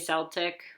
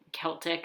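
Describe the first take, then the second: First: The word begins with an s sound. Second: The word begins with a k sound. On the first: This is the sports team's pronunciation. The speaker calls it wrong. "it's weird for me to say Celtic" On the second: This is the pronunciation for the culture. The speaker calls it right. "I guess is the correct pronunciation"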